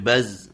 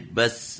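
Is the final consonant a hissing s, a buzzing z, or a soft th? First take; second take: buzzing z; hissing s. First: The final consonant is a buzzing z sound. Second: The final consonant is a hissing s sound. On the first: "enggak boleh baz. Nah, enggak boleh ada huruf Z-nya" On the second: "itu jadi enggak boleh bas gitu"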